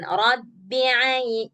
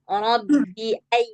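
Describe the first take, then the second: First: The 'ai' begins with a tight throat sound. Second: The 'ai' begins with a plain glottal stop. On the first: The speaker calls it wrong. "jangan rabbi ai, jangan ke ain" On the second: The speaker calls it right. "A, a, hamzah"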